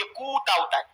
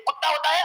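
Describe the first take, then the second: First: कूता with long drawn-out oo and single t; demonstrated कूता, long first vowel; contrasting mispronunciation. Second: कुत्ता with short u and doubled t; demonstrated कुत्ता, short first vowel; correct pronunciation. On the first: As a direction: stretch the oo in कूता. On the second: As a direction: keep the u of कुत्ता short, close on tt. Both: Shown as a demonstration. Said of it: "उसके pronunciation को बताओ".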